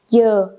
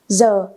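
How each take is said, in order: First: It is said with a southern Vietnamese accent. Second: It is said with a northern Vietnamese accent. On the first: "the southerners call it giờ" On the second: "the northerners call it giờ"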